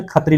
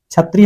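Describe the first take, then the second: First: खतरी opening with kh instead of chh; kha for chha. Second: Said in the usual way. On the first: Shown as a demonstration. Teacher showing how Nagpuri changes the word, kh opening खतरी. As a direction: say छतरी as खतरी, starting on aspirated k. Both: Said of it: "ख का ही प्रयोग करना है".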